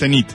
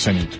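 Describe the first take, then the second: First: The stress is on the second syllable. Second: The stress is on the first syllable. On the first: The speaker calls it right. "La forma aguda es Zenit" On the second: The speaker calls it wrong. "no Zenit"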